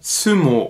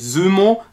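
First: The first S is sharp and voiceless. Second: The first S is soft and voiced. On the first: The speaker calls it right. "sondern ein scharfes S" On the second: The speaker calls it wrong. "Es heißt aber nicht Sumo"

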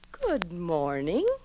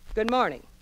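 First: It is said slowly, loudly and distinctly. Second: It is said quickly and abruptly. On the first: The speaker calls it right. "speak slowly. Make every syllable loud, clear, and distinct" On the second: The speaker calls it wrong. "Never be abrupt. Don't say"

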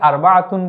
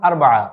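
First: The word keeps its full -atun ending. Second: The word drops its ending and is shortened. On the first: This is the formal form of the number. "আমরা উচ্চারণ করার সময় এটিকে আরবাআতুন বলি" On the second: This is the everyday spoken form of the number. "কথ্য ভাষায় আমরা যখন বলবো তখন আরবা এভাবে বলে যাই"

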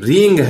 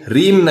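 First: The word ends with an ng sound. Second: The word ends with an m sound. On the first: The speaker calls it right. "ये रिंग है, H R I एन जी रिंग" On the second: The speaker calls it wrong. "ये ह्रीम नहीं है, H R I एम ह्रीम नहीं है"

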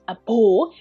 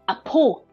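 First: The second syllable starts with a b sound. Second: The second syllable starts with a p sound. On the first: The speaker calls it wrong. "we don't pronounce a bo" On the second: The speaker calls it right. "we just pronounce a po"

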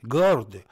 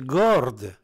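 First: The word begins with a hard g sound. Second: The same.

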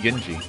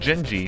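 First: The word begins with a hard G sound. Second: The word begins with a soft J sound. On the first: "would it be Genji?" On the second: "I've always said Genji because, you know, well, it's like gingerbread man"

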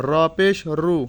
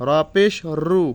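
The two takes are said the same way.

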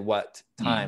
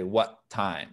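First: Both T sounds are said separately. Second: The two T sounds run together as one. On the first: The speaker calls it wrong. "We don't say what time" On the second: The speaker calls it right. "We say what time?"

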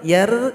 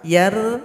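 Both takes have the same delivery.

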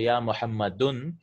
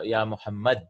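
First: The name ends with an -un sound. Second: The name ends with no final vowel. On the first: "you cannot say ya muhammadun" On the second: "in the general language, what happens is we don't say the endings"

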